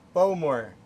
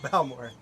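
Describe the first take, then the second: First: The first syllable rhymes with 'go'. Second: The first syllable rhymes with 'cow'. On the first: The speaker calls it right. "think like bow as in bow and arrow" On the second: The speaker calls it wrong. "Not Bowmore"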